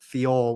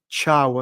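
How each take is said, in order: First: The name ends with an 'or' sound. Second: The name ends with an 'ow' sound. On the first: The speaker calls it wrong. "which I now know is not right" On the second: The speaker calls it right. "I think, is Malik Thiaw"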